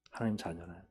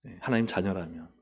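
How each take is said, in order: First: 하나님 자녀라면 repeated much softer, trailing down; soft echo. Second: Said in the usual way. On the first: Shown as a demonstration. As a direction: drop to a quiet emphatic echo of 하나님 자녀라면.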